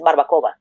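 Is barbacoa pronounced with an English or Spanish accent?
Spanish. The word is said with a Spanish accent. This is the authentic way to say it. "but it's barbacoa"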